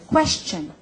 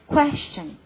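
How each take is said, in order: First: The word is pronounced in a simple, clear way. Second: The same.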